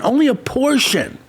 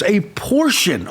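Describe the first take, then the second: First: "only" lifted higher and leaned on; "only" said higher with weight, then "a portion" plainly; stress on ONLY. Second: Said in the usual way. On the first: Real, not acted. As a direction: hit the word "only".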